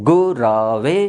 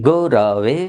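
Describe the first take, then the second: No difference in how they are said.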